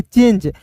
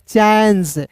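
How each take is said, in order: First: चेंज with a long "ay" vowel; reading with e. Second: चेंज said as "chanj", open vowel; reading without e. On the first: Teacher showing the changed sound, चेंज with long ay. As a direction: say चेंज as English "change", one syllable. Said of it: "इसका उच्चारण बदल गया". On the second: Teacher showing the word lacking final e, चेंज with open vowel. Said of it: "आई के रूप में उच्चारण करते हैं". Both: Shown as a demonstration.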